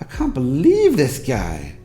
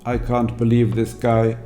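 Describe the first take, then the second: First: The pitch moves widely with emotional surprise. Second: The pitch is mechanical and monotone, like a machine. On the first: The speaker calls it right. "emotionally invested in what they were saying and were expressing an element of surprise" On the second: The speaker calls it wrong. "It sounds a little bit like a speech synthesizer"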